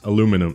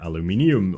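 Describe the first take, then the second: First: The word is said with four syllables. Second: The word is said with five syllables. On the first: "they they like lose like another I in there" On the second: "No, it's aluminium"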